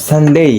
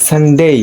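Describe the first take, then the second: The two takes are said the same way.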